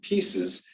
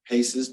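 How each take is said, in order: First: It sounds like the word 'pieces'. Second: It sounds like the word 'paces'. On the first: This is the preferred way to say it. "we're actually pronouncing it pieces" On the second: Other people say it this way. "I've heard people call them PACEs"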